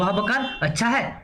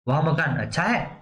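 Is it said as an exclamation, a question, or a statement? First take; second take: exclamation; question. First: It is said with an exclamatory, surprised tune. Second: It is said with a questioning tune. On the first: It expresses wonder at how good the house is. "विस्मय उत्पन्न कर रहा है।" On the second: It asks whether the house is good. "प्रश्नवाचक"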